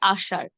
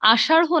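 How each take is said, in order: First: The final r-like sound has no breath. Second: The final r-like sound has an h-like breath. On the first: The speaker calls it right. "হবে আষাঢ়" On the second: The speaker calls it wrong. "না হয়ে"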